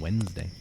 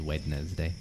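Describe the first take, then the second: First: Some written letters are left unsounded, shortened. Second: Every written letter is sounded out, as spelled. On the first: "How did it become Wednesday?" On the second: "I always pronounce it in my mind as Wednesday... that's how I spell it"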